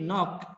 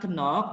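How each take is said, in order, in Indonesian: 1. K di awal diam. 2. K di awal dibunyikan. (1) "tapi knock" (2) "Bacanya bukan kenok"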